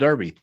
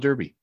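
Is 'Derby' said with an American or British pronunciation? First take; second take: British; American. First: It is said with a British pronunciation. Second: It is said with an American pronunciation. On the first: "in England where they call it a Derby" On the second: "in America where they call it a Derby"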